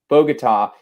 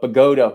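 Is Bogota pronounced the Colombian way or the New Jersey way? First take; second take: Colombian; New Jersey. First: It is pronounced the way Colombians say it. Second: It is pronounced the way New Jersey locals say it. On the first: This is the name as used in Colombia. "It's Bogota in Colombia" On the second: This is the name as used locally in New Jersey. "Bogota we called it in Jersey"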